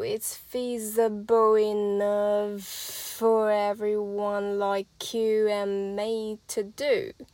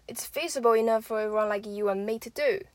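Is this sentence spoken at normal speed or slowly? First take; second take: slowly; normal. First: It is spoken slowly with the linked sounds drawn out. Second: It is spoken at a normal conversational speed. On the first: "慢版的连音示范" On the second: "我就会说"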